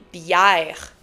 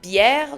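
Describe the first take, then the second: First: It is said in a Quebec French accent. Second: It is said in a standard French accent.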